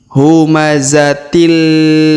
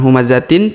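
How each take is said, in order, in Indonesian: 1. Bunyi n melebur menjadi l di akhir. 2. Kata ini berakhir dengan bunyi n yang jelas. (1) "tapi humazatil" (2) "bukan humazatin"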